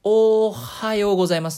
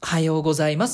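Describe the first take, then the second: First: The first sound is drawn out long. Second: There is a hesitation before the word starts.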